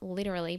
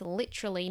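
First: The word is said with a non-Australian pronunciation. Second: The word is said with an Australian pronunciation. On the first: The speaker calls it wrong. "not literally" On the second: The speaker calls it right. "you're Australian. It's literally"

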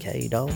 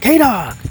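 First: It is said weakly, without conviction. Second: It is said strongly, with conviction.

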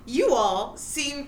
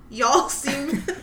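First: The two words are said fully and separately. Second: The two words are contracted into one syllable. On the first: It is the speaker's usual, natural way. The speaker calls it right. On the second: It sounds unnatural coming from this speaker. The speaker calls it wrong.

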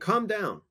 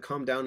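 First: It is said in a tense, sharp way. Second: It is said in a calm, soothing way.

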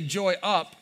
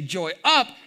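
First: It is said plainly, with ordinary energy. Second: It is said loudly, with lots of energy. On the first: It is only moderately joyful. "if you just say joy up, it's like pretty good" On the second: It expresses joy at a much higher level. "it's like taking joy to a whole never level"

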